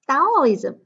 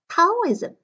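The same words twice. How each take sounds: First: The first consonant is unaspirated, like a d. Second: The first consonant is aspirated, like a t. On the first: "Taoism is unaspirated" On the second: "The aspirated sound Taoism"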